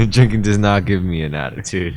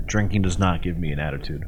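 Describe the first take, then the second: First: Mocking imitation. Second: Low mutter. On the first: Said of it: "mimics friend". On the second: Real, not acted. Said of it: "repeated line".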